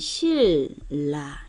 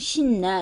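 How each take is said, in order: First: The first syllable ends in an l sound. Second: The first syllable ends in an n sound. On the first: The speaker calls it right. "얘는 실라, 리을, 리을" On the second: The speaker calls it wrong. "이렇게 얘기하면 안 돼"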